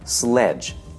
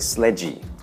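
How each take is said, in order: First: The word ends on the consonant with no vowel. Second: The word ends with an added E vowel sound. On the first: The speaker calls it right. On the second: The speaker calls it wrong.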